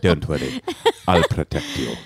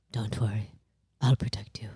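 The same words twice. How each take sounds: First: A hint of posh British, lower; half-copying the posh British line; echoing partner's posh British voice, lighter; lightly repeated British accent. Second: Low, hushed posh British prince; breathy, protective posh British murmur; soft posh British reassurance to his frightened wife; posh British accent. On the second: Retold or imitated. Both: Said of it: "That's a great British accent".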